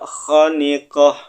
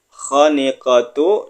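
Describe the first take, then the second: First: The word ends with a short 'h' sound. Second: The word ends with a full 'tu' syllable.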